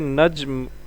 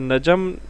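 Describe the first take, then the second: First: The j and m join with no vowel. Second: A short vowel is heard between j and m. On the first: The speaker calls it right. "बल्कि नज्म हो लफ्ज़ होता है" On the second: The speaker calls it wrong. "नजम लफ्ज़ नहीं होता"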